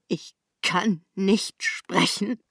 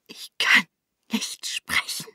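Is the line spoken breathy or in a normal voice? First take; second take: normal; breathy. First: It is spoken in a normal, unbreathy voice. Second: It is spoken in a breathy, airy voice.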